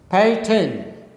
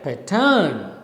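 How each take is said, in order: First: The stress is on the first syllable. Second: The stress is on the second syllable. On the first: The speaker calls it right. "the first syllable is stressed, second syllable is unstressed" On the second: The speaker calls it wrong. "is wrong because second syllable is not stressed"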